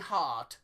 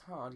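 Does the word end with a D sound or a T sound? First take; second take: T sound; D sound. First: The final D is said as a T. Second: The final D is said as a D. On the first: The speaker calls it wrong. "they pronounce their D's as T's" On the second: The speaker calls it right. "but you still pronounce your D's"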